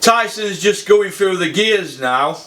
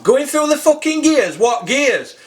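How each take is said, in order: First: Slow, measured quote; quoting a commentator. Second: Higher-pitched incredulous echo; scornful disbelief. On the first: Retold or imitated. Quoting John Rawlings' commentary to the viewers, slow recital. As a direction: read it out slowly as someone else's words. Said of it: "and I quote". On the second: Real, not acted. Fan challenging the commentator's gears remark, incredulous. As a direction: throw it back as a scornful question.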